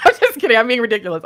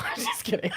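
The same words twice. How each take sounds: First: Loud, giddy. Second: Breathy, giggly whisper of a retraction; laughing softly. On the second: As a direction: laugh it off under your breath. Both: Real, not acted. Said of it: "I don't know why I'm talking like this".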